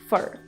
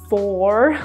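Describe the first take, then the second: First: It is said as a very quick, weak sound. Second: It is said fully, like the number four. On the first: The speaker calls it right. "A very quick sound" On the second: The speaker calls it wrong. "like the number four"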